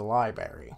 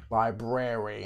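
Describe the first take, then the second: First: "library" without the first r; variant pronunciation. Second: "Library" with both r's sounded; full pronunciation. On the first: Player wanting to visit the library, "library" as LIE-berry. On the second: Player correcting the word, "Library" with both r's sounded. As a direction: say "Library" as LIE-brair-ee. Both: Shown as a demonstration. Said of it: "as some say".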